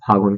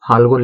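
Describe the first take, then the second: First: No L sound is heard before the G. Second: An L sound is heard before the G. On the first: This is the everyday spoken form. "इसको बोला जाता है फागुन" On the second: This is the written, read-out form. "हम लोग पढ़ते हैं इसको फाल्गुन"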